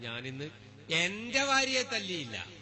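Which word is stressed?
എന്റെ. The stress is on എന്റെ.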